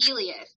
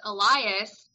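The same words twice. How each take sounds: First: "Elias" as EE-lee-us; author's "Elias". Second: "Elias" as eh-LIE-us; "Elias" usual reading. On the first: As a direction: stress the first syllable of "Elias". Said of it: "she pronounced it". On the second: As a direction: stress the middle of "Elias", long I. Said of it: "but she pronounced it". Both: Shown as a demonstration.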